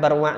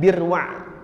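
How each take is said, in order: First: The first syllable has the vowel a. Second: The first syllable has the vowel i.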